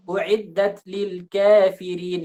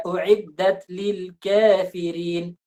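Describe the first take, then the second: First: "kafirin" said slowly with the fi leaning to ke; slow, mistaken "kafirin" like ke; wrong imalah. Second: "kafirin" slowly with a slight imalah sughra on fi; slow, careful "kafirin" with only a touch of e; correct taklil. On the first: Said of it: "Dia baca misalnya". ("kafirin" dibaca salah condong ke "ke") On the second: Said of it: "Bukan seperti itu". ("kafirin" dibaca pelan dengan imalah sughra) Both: Shown as a demonstration.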